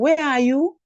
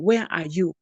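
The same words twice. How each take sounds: First: The voice rises at the end. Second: The voice falls at the end. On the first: The speaker calls it wrong. "We don't say" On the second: The speaker calls it right. "You should be asking"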